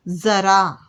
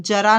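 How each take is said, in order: First: ज़रा with a clear z sound; nukta z sound. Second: जरा with a hard j, the wrong way; wrong j sound. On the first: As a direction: say ज़रा with z, not j. (ज़रा में नुक्ते वाली ज़ की आवाज़) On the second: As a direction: say जरा with j to show the mistake. (जरा को ज की आवाज़ से, गलत तरीका) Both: Shown as a demonstration. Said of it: "हम जरा नहीं बोलते".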